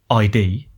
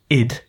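First: It is spoken as two separate letters. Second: It is spoken as one short word. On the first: The speaker calls it wrong. "Often people say ID" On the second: The speaker calls it right. "and you go, id"

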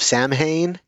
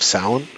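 First: Samhain is said in its common everyday pronunciation. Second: Samhain is said in its careful pronunciation. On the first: The speaker calls it wrong. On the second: The speaker calls it right.

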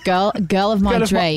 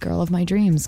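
First: It is said in a put-on British accent. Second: It is said in her ordinary accent.

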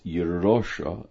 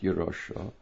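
First: The stress falls on the middle syllable. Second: The stress does not fall on the middle syllable. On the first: The speaker calls it right. "the emphasis here is on the Reish. It's Yerosha" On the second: The speaker calls it wrong. "not Yerosha"

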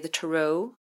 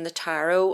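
First: Tarot is said the way Americans say it. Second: Tarot is said in the speaker's own non-American way.

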